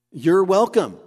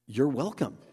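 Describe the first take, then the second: First: Louder, higher, insisting You're welcome; emphatic reply. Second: Said in the usual way. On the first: Acted. Preacher voicing James, insisting firmly on You're welcome. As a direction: lean hard into You're welcome.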